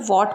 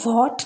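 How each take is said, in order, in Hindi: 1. शब्द सीधे w की आवाज़ से शुरू होता है। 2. w से पहले h की आवाज़ हल्की साँस की तरह निकलती है। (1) "बोलेंगे" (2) "ना बोलकर"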